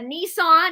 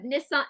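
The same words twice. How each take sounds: First: It is said with an American pronunciation. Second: It is said with a British pronunciation. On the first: "we say uh, Nissan" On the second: "instead of Nissan"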